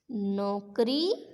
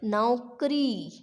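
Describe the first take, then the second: First: नौकरी said slowly as "nokri", plain o; mispronounced नौकरी. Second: नौकरी said slowly with "nau", falling; au sound in नौकरी. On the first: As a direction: say नौकरी wrongly with "no", drawn out. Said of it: "नौकरी नहीं होगी". (नौकरी को धीरे से नोकरी, ओ की मात्रा) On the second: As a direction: open the first vowel of नौकरी into a drawn-out "au". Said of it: "आओ की मात्रा आएगी". (नौकरी में धीमा, साफ़ औ) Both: Shown as a demonstration.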